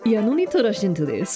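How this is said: It is said with a put-on accent.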